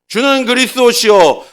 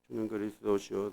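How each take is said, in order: First: It is said in a big, loud voice. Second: It is said in a small, quiet voice. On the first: The confession is made boldly. The speaker calls it right. "큰 목소리로" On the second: The confession is made timidly. The speaker calls it wrong. "그냥 조그마한 목소리로"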